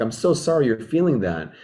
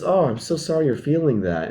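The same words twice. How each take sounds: First: Soft, lower consoling sorry; gently sympathize with an upset friend; empathetic. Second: Soft, tender sympathy, a touch quieter; empathetic. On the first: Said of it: "Then I need to tune into empathy". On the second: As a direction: console gently, really meaning it. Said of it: "And just". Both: Shown as a demonstration. Comforting an upset friend, soft and sympathetic.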